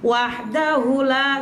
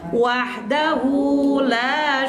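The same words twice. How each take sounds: First: The final 'hu' vowel is held short. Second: The final 'hu' vowel is drawn out long. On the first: The speaker calls it wrong. "sering bacanya hunya tuh pendek. ... salah" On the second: The speaker calls it right. "hunya panjangin ya"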